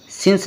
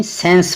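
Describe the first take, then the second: First: सिंस said with an i sound, like since; सिंस, vowel as i; wrong reading. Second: सेंस said with a short e, like sense; सेंस, vowel as e; correct reading. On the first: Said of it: "सिंस नहीं". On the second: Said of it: "सेंस पढ़ना है". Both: Shown as a demonstration.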